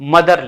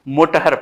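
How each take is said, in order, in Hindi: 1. इसे दो अक्षरों में बोला जाता है, ma-dar। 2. इसे तीन अक्षरों में बोला जाता है, mo-te-har। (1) "मदर लिखा है" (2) "लेकिन पढ़ क्या रहा है, मोटहर पढ़ रहा है"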